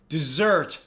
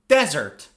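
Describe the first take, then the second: First: The stress is on the second syllable. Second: The stress is on the first syllable. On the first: Something sweet eaten after a meal. "On the second syllable" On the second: A dry sandy area of land. "It's on the first syllable"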